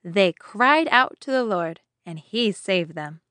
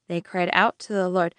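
First: They cried out to the Lord, and he saved them, read slowly with cried leaned on; slow verse reading. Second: Said in the usual way. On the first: Shown as a demonstration. Teacher reading the memory verse aloud to children, slow and deliberate. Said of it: "Our memory verse today is". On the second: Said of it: "That means they called out".

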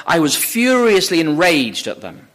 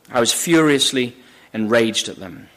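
First: Declaimed quote, leaning hard on "furiously"; emphatic quote. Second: "furiously" set apart low, pause before "enraged"; sober, lower delivery, pausing after "furiously"; subdued repeat. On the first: Preacher quotes Saul's confessed rage. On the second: Repeats the quote to sink in. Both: Acted.

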